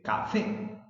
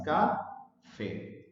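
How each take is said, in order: First: "café" joined up, punched on "fé"; "café" as one word, ca-FÉ, higher; stress on last syllable. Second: "café" slowly split as ca-fé; "café" with a pause between ca and fé; broken into syllables. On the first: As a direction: lean on the final syllable of "café". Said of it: "el acento está en la sílaba fe". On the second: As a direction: say "café" as two separate, even syllables. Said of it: "Café tiene dos sílabas". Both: Shown as a demonstration.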